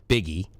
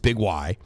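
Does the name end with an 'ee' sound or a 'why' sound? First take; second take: ee; why. First: It is said as one word ending in 'ee'. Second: It is said as two words ending in 'why'. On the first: The speaker calls it wrong. "How do you pronounce that? Biggie. But no" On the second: The speaker calls it right. "it's Big Y"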